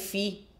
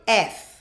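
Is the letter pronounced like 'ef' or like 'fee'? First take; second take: fee; ef. First: The letter is pronounced like 'fee'. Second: The letter is pronounced like 'ef'. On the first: The speaker calls it wrong. "em vez de falar F, eu falei fi" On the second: The speaker calls it right. "oh, sorry, F"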